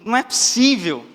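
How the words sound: It is said in an astonished tone. The speaker is shocked by what he found. "O primeiro, de espanto"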